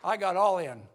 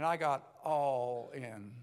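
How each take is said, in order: First: All in shouted with the stress on all, louder; loud declaration. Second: All in drawn out slowly and deliberately; slow it down and let all land; slow emphatic. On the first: Preacher telling the crowd about his conversion, declaring it loud. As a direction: belt out all with full force. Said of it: "I mean, I got all in". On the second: Preacher repeating his conversion line slowly for weight. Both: Shown as a demonstration.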